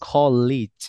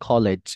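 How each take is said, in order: First: The last syllable does not sound like lej. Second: The last syllable sounds like lej. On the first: The speaker calls it right. "It's gonna be কলেজ" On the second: The speaker calls it wrong. "No, it's not কলেজ"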